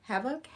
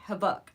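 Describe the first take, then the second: First: Habakkuk as a questioning "HEV-uk", first syllable stressed, pitched high; unsure pronunciation. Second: Habakkuk as "huh-BUK", stress on the last syllable; best-guess pronunciation. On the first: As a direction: guess at Habakkuk as "HEV-uk?", rising. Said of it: "I don't know how to pronounce it". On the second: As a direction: land firmly on Habakkuk as "huh-BUK", falling and louder. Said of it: "I think that might be how you pronounce it". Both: Shown as a demonstration.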